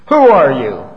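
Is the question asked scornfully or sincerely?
scornful. The question sounds scornful and challenging. The asker doubts the listener's claimed importance. "who in the world do you think you are anyway?"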